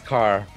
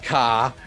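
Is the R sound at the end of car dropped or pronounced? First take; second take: pronounced; dropped. First: The word ends with a clear R sound. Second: The word ends without an R sound. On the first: The speaker calls it right. "There's an R in car" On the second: The speaker calls it wrong. "It's not car"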